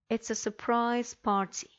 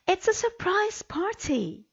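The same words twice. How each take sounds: First: It is said plainly, without strong feeling. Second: It is said excitedly, with strong feeling. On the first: The speaker calls it wrong. "the intonation was all wrong" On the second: The speaker calls it right. "I will read them correctly"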